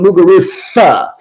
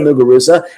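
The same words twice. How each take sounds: First: The consonant before the final vowel is th. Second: The consonant before the final vowel is a z. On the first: "with like a T H instead of a Z" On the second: "she would say Muguruza"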